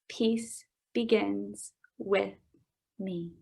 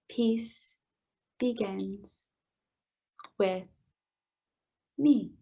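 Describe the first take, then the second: First: It is said at a normal pace. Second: It is said slowly.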